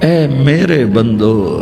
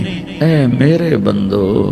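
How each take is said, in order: No difference in how they are said.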